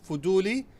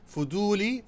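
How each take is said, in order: The two takes are said the same way.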